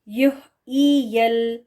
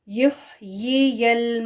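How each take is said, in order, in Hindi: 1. दूसरा अक्षर 'y' के बिना सादा 'ee' स्वर है। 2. दूसरा अक्षर साफ़ 'y' ध्वनि से शुरू होता है। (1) "हमज़ा ज़ेर ई पढ़ देना, ये गलत है" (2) "ये इसकी करेक्ट प्रोनाउंसिएशन है"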